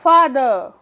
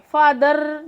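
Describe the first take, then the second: First: फादर with the final r left silent; फादर said "faa-duh", no r; r-controlled ending. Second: फादर with a hard, sounded final r; फादर ending in a heavy "-dar"; wrong sounded R. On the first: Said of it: "क्योंकि ये आर control sound है". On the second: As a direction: roll out the r at the end of फादर. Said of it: "फादर नहीं कहेंगे". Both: Shown as a demonstration.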